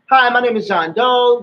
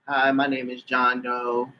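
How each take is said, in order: First: It is said in a polite, professional tone. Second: It is said in a flat, careless tone.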